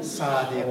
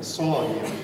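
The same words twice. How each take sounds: First: Said in the usual way. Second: صادق with an emphatic Arabic ص and a lower, drawn-out vowel; Arabic pronunciation. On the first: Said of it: "نه این صادق". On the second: Shown as a demonstration. Teacher contrasts Persian and Arabic, Arabic-style صادق.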